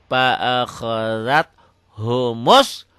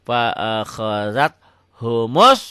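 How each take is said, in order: The two takes are said the same way.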